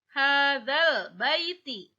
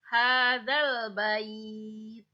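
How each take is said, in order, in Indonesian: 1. Frasa itu berakhir dengan vokal i pendek. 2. Frasa itu berakhir dengan konsonan t mati.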